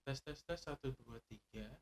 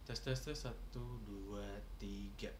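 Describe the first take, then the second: First: Background noise is filtered out of the recording. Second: Background noise is left in the recording.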